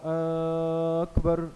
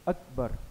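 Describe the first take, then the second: First: The first vowel is drawn out long. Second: No vowel is drawn out long. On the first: The speaker calls it wrong. "अकबर के शुरू के अलिफ को बढ़ाकर पढ़ा" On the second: The speaker calls it right. "अलिफ पर सिर्फ ज़बर है"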